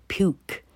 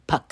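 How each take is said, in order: First: Puke said with a "yoo" vowel, like "pyook"; long U. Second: Puck said with a short "uh" vowel. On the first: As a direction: give puke the letter name U as its vowel. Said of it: "这个U要念作U". (puke的U念成字母本音"you") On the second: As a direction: say puck to rhyme with duck, not puke. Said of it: "这时候就不念puck". (puck的U念成短音"呃") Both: Shown as a demonstration.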